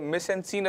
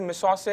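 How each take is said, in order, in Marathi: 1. हा शब्द भारतीय इंग्लिश उच्चारणाने म्हटला जातो. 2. हा शब्द फ्रेंच उच्चारणाने म्हटला जातो. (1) "साधारण इंग्लिश इंडियन प्रोनाउन्सिएशन मध्ये मिस अँड सीन असं म्हणतो" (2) "फ्रेंच भाषेमध्ये मिसॉसे असं म्हणतात"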